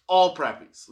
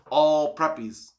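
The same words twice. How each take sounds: First: "All preppies" louder, punched on "All"; louder repeat. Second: "all preppies" slow, weight on "all"; emphatic. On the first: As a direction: repeat it harder, hitting "All". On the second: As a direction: lean slowly into "all preppies". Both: Shown as a demonstration. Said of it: "just keep that in mind".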